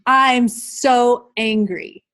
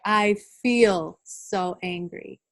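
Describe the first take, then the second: First: "I'm so angry" said slowly, leaning on "I'm"; the wrong way, slowly. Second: "I feel so angry" slow, with "feel" lifted and stressed. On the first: Teacher modelling the wrong phrasing, slow and deliberate. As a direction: show the phrasing to avoid, drawn out. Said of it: "instead of saying". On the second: Teacher modelling the right phrasing, slow with "feel" stressed. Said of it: "we need to say". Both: Shown as a demonstration.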